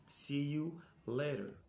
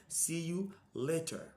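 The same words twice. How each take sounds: No difference in how they are said.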